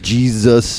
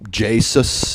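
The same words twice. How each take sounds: First: The middle consonant is a z sound. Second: The middle consonant is an s sound. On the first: This is how most people say it. The speaker calls it wrong. "everybody says Jesus" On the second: This follows the spelling without a z. The speaker calls it right. "there's no Z in it"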